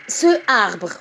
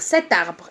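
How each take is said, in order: First: No t sound comes before the vowel. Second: A t sound links into the following vowel. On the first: The speaker calls it wrong. "je ne peux pas dire ce arbre. Non, ça ne se dit pas" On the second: The speaker calls it right. "je dois ajouter la consonne T pour, pour mieux prononcer et dire cet arbre"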